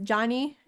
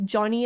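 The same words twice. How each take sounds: First: Johnny with an open A, like Jahnny; A-like vowel. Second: Johnny with a rounded O; British-style vowel. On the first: Comparing how the two stars greet dad, open A in Johnny. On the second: Comparing how the two stars greet dad, rounded O in Johnny. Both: Shown as a demonstration. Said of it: "more with, with an A".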